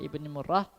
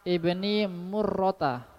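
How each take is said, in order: First: The name ends cut off on an 'h' sound. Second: The name ends with a full 'ta' syllable.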